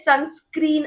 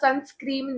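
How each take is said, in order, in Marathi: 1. हा शब्द n आवाजाने संपतो. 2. हा शब्द m आवाजाने संपतो. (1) "पहिली बात तर ते सनस्क्रीन असतं" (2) "सनस्क्रीम नाही"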